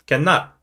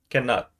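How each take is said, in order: First: "Cannot" rising at the end; Singlish question. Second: "Cannot" falling at the end; Singlish answer. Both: Shown as a demonstration. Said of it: "Singlish is complete with one word".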